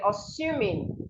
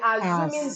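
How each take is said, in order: First: The middle consonant is a hissing S sound. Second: The middle consonant is a buzzing Z sound. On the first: The speaker calls it right. "The S here makes a sound, not Z. You should say assuming" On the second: The speaker calls it wrong. "So do not say assuming that"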